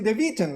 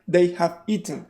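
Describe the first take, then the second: First: The auxiliary is contracted onto the pronoun. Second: The auxiliary is said in full, uncontracted. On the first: The speaker calls it right. "the auxiliaries do not have accent, they contract. So I say they've eaten" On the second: The speaker calls it wrong. "But nobody says that"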